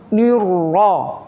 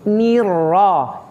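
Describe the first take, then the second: First: The first vowel is said with pursed, rounded lips. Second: The first vowel is said with spread, smiling lips. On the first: The speaker calls it wrong. "tidak boleh" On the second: The speaker calls it right. "yang betul"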